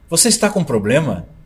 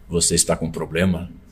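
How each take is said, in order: First: It is said in a plain, natural voice. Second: It is said in a put-on announcer voice.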